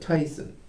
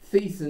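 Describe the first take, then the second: First: The first vowel sounds like 'eye'. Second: The first vowel sounds like 'ee'. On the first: This is how the speaker's own family says it. "My pa- my people call it Tyson" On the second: This is how other branches of the family say it. "Thiessen isn't wrong. Some people pronounce it that way"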